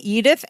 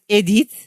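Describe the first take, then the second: First: The name is pronounced the English way. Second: The name is pronounced the French way.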